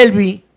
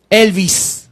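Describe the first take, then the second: First: Elvi ending on the open i, without an S; no final S. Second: Elvis with a clear hissed S at the end; final S added. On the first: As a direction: leave the S off Elvi. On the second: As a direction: add the S to close Elvis. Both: Shown as a demonstration. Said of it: "agregaron una S al final".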